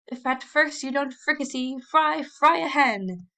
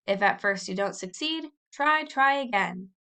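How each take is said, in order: First: Higher, louder, slow hammed-up declamation; mock dramatic declaiming. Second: Sing-song recitation. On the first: Tom teasing Warren with his version, hammed-up declaiming. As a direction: ham it up like a pompous orator. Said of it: "a dramatic attitude and declaimed". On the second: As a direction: chant the motto like a schoolboy drilling it. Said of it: "He said it over and over". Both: A narrator's reading.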